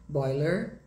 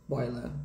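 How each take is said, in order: First: American "boiler", final R sounded, rising; sotaque americano. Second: British "boiler", lower, ending in "ah"; sotaque britânico. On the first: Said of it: "em inglês americano". (sotaque americano, com R final) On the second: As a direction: drop the R of "boiler", British style. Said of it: "No inglês britânico". (sotaque britânico, mais grave, sem R) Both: Shown as a demonstration.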